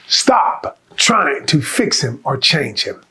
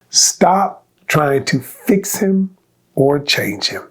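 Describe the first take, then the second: First: It is said with extra force and conviction. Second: It is said in a plain, ordinary voice.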